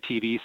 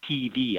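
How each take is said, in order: First: The E vowel is plain and short. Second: The E vowel is long and exaggerated. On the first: The speaker calls it wrong. "don't say TV" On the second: The speaker calls it right. "push those long E's"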